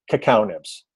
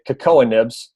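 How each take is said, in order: First: "Cacao" said ka-KOW, before nibs; correct cacao. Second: "Cocoa nibs" said as ka-KOH-a nibs; mispronounced cacao. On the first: Coach correcting a pet peeve, "Cacao" said ka-KOW. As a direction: say "Cacao" as ka-KOW, ending like cow. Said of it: "Pronunciation of words is huge". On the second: Coach imitating a credibility-losing mistake, "Cocoa" mispronounced. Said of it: "nails on the chalkboard when I hear someone say". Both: Shown as a demonstration.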